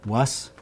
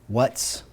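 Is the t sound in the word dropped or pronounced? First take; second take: dropped; pronounced. First: The t sound before the final s is dropped. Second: The t sound before the final s is pronounced. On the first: "the T is dropped" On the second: "what we would pronounce as what's"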